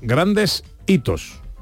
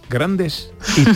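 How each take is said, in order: First: The two words are said with a break. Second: The two words run together without a break.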